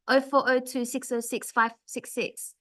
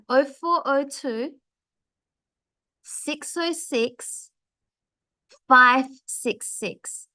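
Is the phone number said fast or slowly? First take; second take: fast; slowly. First: The number is said quickly with little pausing. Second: The number is said slowly with pauses between groups. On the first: The listener cannot keep up with the number. The speaker calls it wrong. "It's too fast for someone to listen to your mobile number" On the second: The listener has time to write the number down. The speaker calls it right. "I make sure I have a pause in the middle"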